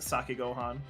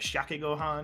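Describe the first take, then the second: First: The first word begins with an s sound. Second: The first word begins with a sh sound. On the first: "without the H sound, but I am informed it's Sake Gohan" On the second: "if I were to be pronouncing it, it'd be like Shake Gohan"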